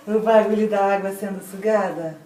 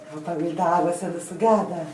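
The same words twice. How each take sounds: First: Said in the usual way. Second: Rattled off fast and low; quick low throwaway line; quick run-through. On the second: Shown as a demonstration. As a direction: toss it off quickly, like a caption.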